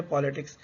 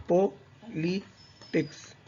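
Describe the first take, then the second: First: Said in the usual way. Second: politics broken slowly into three separate syllables; slow, teacherly syllable split of politics. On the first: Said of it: "इसको आप अगर बोले तो". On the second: Shown as a demonstration. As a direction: say politics as po, li, tics with clear gaps. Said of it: "syllable होते हैं जैसे किसी word को बोलते वक्त".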